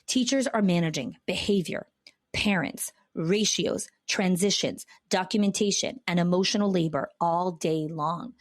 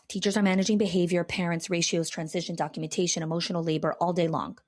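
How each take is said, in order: First: The list is spoken more slowly. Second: The list is spoken very fast. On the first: "I'll say that again" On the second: "I just said that really fast"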